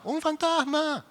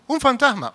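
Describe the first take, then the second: First: Very high, slow, drawn-out "fantasma"; terrified wail. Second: Higher voiced alarm at "fantasma"; first realization, "fantasma" rising in fear. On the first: Retold or imitated. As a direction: let "fantasma" wail out in terror. (gemido aterrado, muy agudo y lento) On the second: (alarma al decir "fantasma") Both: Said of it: "el primero que lo vio dijo".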